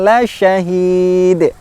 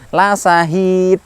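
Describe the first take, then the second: First: The consonant is an sh sound, tongue raised. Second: The consonant is a plain, light s sound. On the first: The speaker calls it right. "mengangkat punggung lidahnya, tengah lidahnya ke langit-langit" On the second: The speaker calls it wrong. "Tidak tidak ringan la sahid, la sahid, kurang sempurna"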